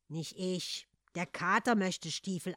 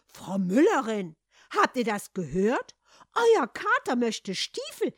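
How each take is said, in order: First: Short, matter-of-fact reply at usual pitch; curt. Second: Loud, drawn-out scandalised outcry; worked up. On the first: Embarrassed Hans answers the shoemaker's wife, curt. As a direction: answer tersely, without fuss. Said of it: "antwortete Hans knapp". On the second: Farmer's wife tells the miller's wife, worked up. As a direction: shout it to the neighbour, climbing high. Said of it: "ereiferte sich die Bauersfrau". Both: A narrator's reading.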